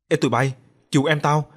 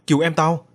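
First: Put-on loud, frightened call to the other kids; panicked shout for help. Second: Louder, more desperate repeat of the plea; panicked shout for help, building. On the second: Acted. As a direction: push the plea harder, desperate. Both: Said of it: "Thằng Lành hoảng gọi lớn".

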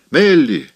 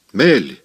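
First: Higher, louder second call of the name; joyful shout. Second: Calling out glad, first time; joyful call. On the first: Maybelle calls Melly again, higher and louder. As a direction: shout it again, bursting with joy. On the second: Maybelle calls Melly from the crowd, joyful. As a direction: call her name across the crowd. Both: A narrator's reading. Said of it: "радостно кричала Мейбл".

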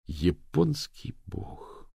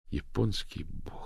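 First: Very slow soft echo of the curse; echoed quietly and slowly; slow repeated oath. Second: Soft, slow inner curse; thought to herself. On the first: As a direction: let the curse hang. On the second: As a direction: mutter it in her head. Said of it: "подумала Дафна". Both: A narrator's reading.

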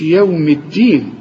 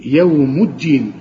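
First: يوم said without the damma on the mim; wrong yawm. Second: يوم الدين with a clear damma, yawmu; correct yawmu. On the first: Teacher imitates student's mistake. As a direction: slur يوم الدين wrongly. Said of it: "ما تقولش". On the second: Teacher gives the right reading. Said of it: "الميم هنا مضمومة". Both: Shown as a demonstration.

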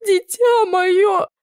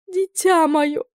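First: Even higher, dragged-out sobbing "дитя"; sobbing wail, higher still. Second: Put-on high, tearful old aunt's wail; sobbing aunt. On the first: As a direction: stretch "дитя моё" into a slow, rising wail. (ещё выше и медленнее, навзрыд «дитя моё») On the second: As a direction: wail "Дитя" through tears, much higher. (рыдающая тётушка, высоким голосом) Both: A narrator's reading. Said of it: "рыдала тётя".

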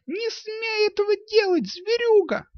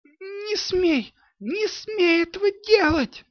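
First: Put-on high girl's scream, pounding at her father; яростный высокий крик девочки; furious yell. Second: Put-on high, frantic girl's scream; девчачий вопль не своим голосом; unrecognizable yell. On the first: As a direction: hurl it at him while beating him with fists. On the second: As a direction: scream at the robbers in a voice not her own. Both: A narrator's reading. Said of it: "заорала она не своим голосом".

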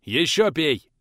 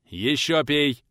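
First: Louder command, stress on ещё; stern teacher forcing more; harsh order. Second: Louder stern command on ещё; gruff teacher forcing the drink; gruff order. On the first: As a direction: hit ещё hard. Teacher forces more drink. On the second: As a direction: press him to drink more. Teacher forces more again. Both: Acted.

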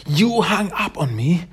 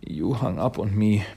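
First: High, rising cry of disbelief; tearful outburst. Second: The hurt sinking back to normal pitch; crying, subdued. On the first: Mona after her parents hang up, tearfully outraged. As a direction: imitate a hurt daughter wailing at the phone. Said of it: "She just starts to cry". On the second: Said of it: "is just crying". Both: Retold or imitated.

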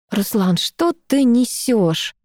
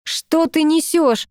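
First: Slow, pained disbelief; wincing, irritated. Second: Slow, heated demand; angry. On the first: Girl winces at ex's nonsense, slow and irritated. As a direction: drag it out with distaste. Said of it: "поморщилась я". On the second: Girl angrily confronts her ex, slow and heated. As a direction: hurl it back at him, slowly. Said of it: "разозлилась я". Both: Acted.

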